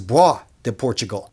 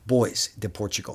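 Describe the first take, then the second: First: The first word sounds like 'bwah'. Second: The first word sounds like English 'boys'. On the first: The speaker calls it right. "I found out this is bois de Portugal" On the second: The speaker calls it wrong. "not uh, boys de Portugal. I like boys, it just sounds cooler"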